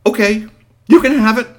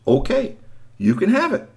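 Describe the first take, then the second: First: High, loud, hurried surrender; the boy quickly handing it over; hasty giving in. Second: A storyteller voicing the boy's meek giving in; high boyish voice. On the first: Acted. Storyteller voicing the boy giving in to Bigfoot, high and loud. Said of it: "And then he remembered". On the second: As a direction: lift it high like the little boy. The expected line the boy never said.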